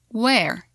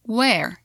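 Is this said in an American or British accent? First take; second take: American; American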